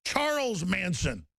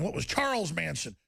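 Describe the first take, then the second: First: "Charles Manson" said slowly, each word weighted; slow emphatic name. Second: Said in the usual way. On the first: Real, not acted.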